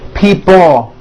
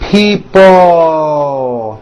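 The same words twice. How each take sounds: First: The final L sound is weak and short. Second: The final L sound is strong and stretched. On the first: The speaker calls it wrong. "it's not pronounced people with your tongue not moving" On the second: The speaker calls it right. "Stretch out that L sound"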